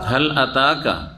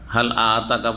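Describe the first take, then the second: First: The first vowel of ataka is short. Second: The first vowel of ataka is long. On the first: Has it come to you. The speaker calls it right. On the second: Has he given you. The speaker calls it wrong.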